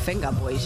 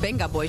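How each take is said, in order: First: The name begins with a V sound. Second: The name begins with a B sound. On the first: The speaker calls it wrong. "niet de Venga Boys" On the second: The speaker calls it right. "Nu noemt het dus de Benga Boys"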